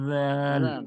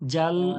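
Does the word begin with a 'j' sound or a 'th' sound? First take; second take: th sound; j sound. First: It begins with a soft 'th'-like dental sound. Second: It begins with a hard 'j' sound. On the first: The speaker calls it right. "জিহ্বার আগাটা উপরের দাঁতের ধারালো অংশতে লাগিয়ে দেন" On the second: The speaker calls it wrong. "জাল বললে আহ, বর্গীয়াজ্জর মতো হয়ে যাচ্ছে"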